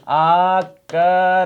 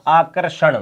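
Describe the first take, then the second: First: आकर्षण stretched very slowly; slow demo. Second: Said in the usual way. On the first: Shown as a demonstration. Teacher slowing आकर्षण for students after an error. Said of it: "वो कैसा है? गलत है।". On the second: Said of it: "क्या बनेगा?".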